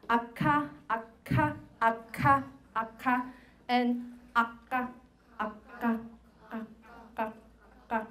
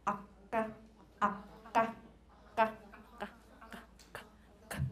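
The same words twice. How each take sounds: First: Akka with normal aspirated k from lung air; pulmonic akka. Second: Akka popped as ejective k, no lung air. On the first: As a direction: akka breathed out plainly, ordinary k. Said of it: "Now, doing a, a pulmonic k". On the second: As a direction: akka spat out with held breath, glottal pop. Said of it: "And then pronounce akka". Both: Shown as a demonstration.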